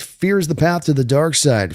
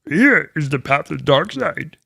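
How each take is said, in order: First: It is said in his normal voice. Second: It is said in a Yoda voice.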